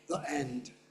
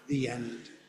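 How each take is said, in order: First: 'The' is short 'thuh' with a glottal catch. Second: 'The' is 'thee', linking smoothly into the vowel. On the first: This is how younger speakers say it. "younger speakers from all over the English-speaking world" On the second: This is how older speakers say it. "I'm a very old man and I say the"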